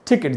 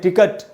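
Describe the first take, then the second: First: It is said with a British pronunciation. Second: It is said with an Indian pronunciation. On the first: "वही ज्यादा बोलते हैं वो लोग" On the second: "जैसे हम लोग बोलते हैं टिकट"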